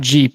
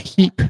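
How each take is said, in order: First: It begins with a hard J sound. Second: It begins with a breathy H sound. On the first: The speaker calls it wrong. "It's not Jeep" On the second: The speaker calls it right. "you're supposed to pronounce it like our southern neighbors do"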